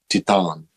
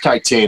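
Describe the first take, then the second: First: The word is pronounced the French way. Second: The word is pronounced the English way. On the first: "But if it's French, it's probably not Titan. It's probably like Titan" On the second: "I think it's Titan"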